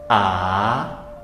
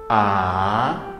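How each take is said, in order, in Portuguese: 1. O tom começa no meio e sobe. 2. O tom começa no meio e sobe.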